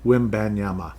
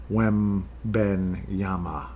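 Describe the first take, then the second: First: Wembanyama said smoothly at normal speed, falling at the end; now say Wembanyama with ease; confident second try. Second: Wembanyama sounded out slowly, syllable by syllable; careful first try. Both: Shown as a demonstration. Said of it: "I think I got it".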